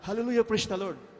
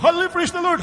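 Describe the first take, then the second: First: It is said weakly and softly. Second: It is shouted loudly.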